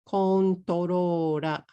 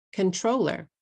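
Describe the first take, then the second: First: Slow "controller" as Japanese ko-n-to-ro-ra; katakana pronunciation. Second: Said in the usual way. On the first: Shown as a demonstration. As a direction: say "controller" drawn out with katakana vowels, kontorora. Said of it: "than if you say". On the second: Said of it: "This is three syllables".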